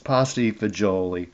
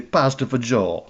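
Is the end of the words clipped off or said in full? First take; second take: full; clipped. First: The words are said in full, every syllable. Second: The word endings are cut off, Jersey-style. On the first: This is the standard way to say it. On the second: This is how New Jersey speakers say it.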